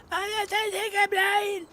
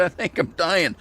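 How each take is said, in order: First: Much higher, slow, squeezed out through a choking throat; choked, strangled croak. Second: Said in the usual way. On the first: Retold or imitated. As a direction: retell it as if still choking on tea. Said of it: "I can't talk because I'm". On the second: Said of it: "And I said".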